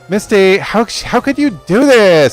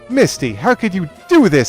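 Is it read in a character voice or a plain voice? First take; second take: character voice; plain voice. First: It is read in a put-on character voice. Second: It is read in a plain voice.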